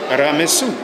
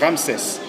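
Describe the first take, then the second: First: The name ends in an 'su' sound. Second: The name has two syllables ending in 'ses'. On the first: This follows the ancient written form. "It is better to pronounce it Ramesu" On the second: This is the French form. "in French we say Ramses"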